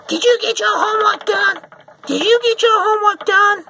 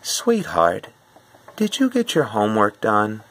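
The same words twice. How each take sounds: First: Shrieking, much higher and louder, repeated; furious mother screeching at her kid; harsh mom yell. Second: Gentle, sweet reminder from a mom; asking a child sweetly about homework; nice mom voice. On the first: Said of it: "Some moms might do this harshly". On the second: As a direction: ask sweetly like a kind mother. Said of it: "she might say something such as". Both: Retold or imitated.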